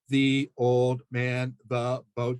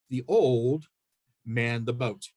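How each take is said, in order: First: It is read choppily, one word at a time. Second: It is read in meaningful phrases.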